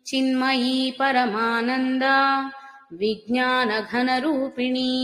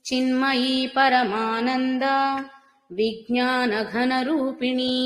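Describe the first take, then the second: The two takes are said the same way.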